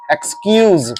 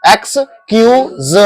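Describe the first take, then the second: First: एक्सक्यूज said as one joined word, X sound then kyooz; एक्सक्यूज in one go, as eks-kyooz; model pronunciation. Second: एक्सक्यूज slowly split into eks, kyoo, z; syllable-by-syllable pronunciation. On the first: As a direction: say एक्सक्यूज whole, ending on a buzzed z. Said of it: "मैं सिखाता हूँ आपको इसको pronounce करना". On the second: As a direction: break एक्सक्यूज into three spaced sounds. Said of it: "एकदम आसान तरीका बताता हूँ". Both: Shown as a demonstration.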